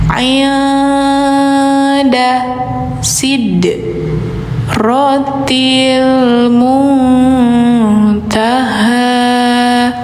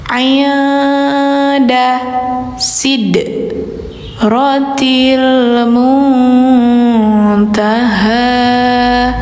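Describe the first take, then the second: No difference in how they are said.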